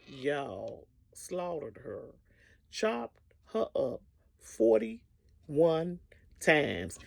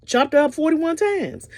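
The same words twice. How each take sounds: First: Drawn out very slowly and quietly; slow grim emphasis. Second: Said in the usual way. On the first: Real, not acted. Telling the audience the killing, very slow and hushed. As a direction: let each word land slowly and darkly. Grim climax of murder story.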